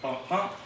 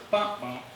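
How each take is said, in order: First: "bump, bump" with the second bump stressed; light first "bump", punched second "bump". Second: "bump, bump" with the first bump stressed; punched first "bump", lighter second "bump". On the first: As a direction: say "bump, bump" as an iamb, weak first bump then strong second bump. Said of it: "unstressed, stressed is a". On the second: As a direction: say "bump, bump" as a trochee, strong first bump then weak second bump. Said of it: "stressed, unstressed". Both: Shown as a demonstration.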